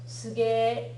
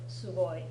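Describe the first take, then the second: First: The word ends in a clipped 'e' sound. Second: The word ends in a full 'oi' sound. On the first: It is casual slang. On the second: It is the standard form.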